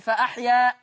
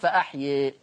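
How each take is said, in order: First: The final vowel is a fully open 'a'. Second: The final vowel is slightly raised toward 'e'. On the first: "لك فيها الفتح" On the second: "ولك فيها التقليل"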